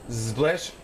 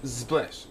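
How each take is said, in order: Both takes have the same delivery.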